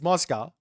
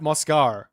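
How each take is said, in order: First: It ends without any r sound. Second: It ends with an added r sound. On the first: The speaker calls it right. "no, it's Moscow" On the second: The speaker calls it wrong. "do I sometimes add a silent R at the end of words?"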